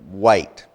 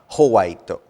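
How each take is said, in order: First: It is said as one syllable. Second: It is said as several syllables with added vowels. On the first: The speaker calls it right. "W sound" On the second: The speaker calls it wrong. "not howaito"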